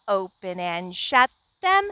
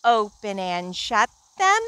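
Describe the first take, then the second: No difference in how they are said.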